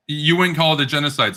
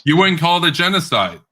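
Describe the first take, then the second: First: Said in the usual way. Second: Incredulous. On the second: Real, not acted. Incredulous repeat of opponent.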